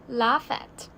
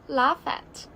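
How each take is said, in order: Both takes have the same delivery.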